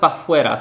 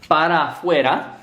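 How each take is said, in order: First: The first word is shortened to one syllable. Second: The first word is said fully with two syllables. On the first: "the para actually does get shortened to like a pa" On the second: "it should be like para para fuera"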